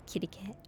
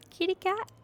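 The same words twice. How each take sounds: First: Whispered kitty cat; gentle unvoiced call to a cat. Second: "Kitty cat" sung out very high; high-pitched coaxing call to a cat. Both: Shown as a demonstration.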